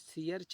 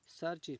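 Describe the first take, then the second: First: The vowel glides from ee to uh. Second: The vowel is a short uh sound. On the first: The speaker calls it wrong. "हम यहाँ सीयर्च नहीं" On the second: The speaker calls it right. "सर्च पढ़ेंगे इसको"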